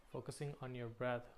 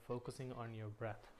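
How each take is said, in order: Both takes have the same delivery.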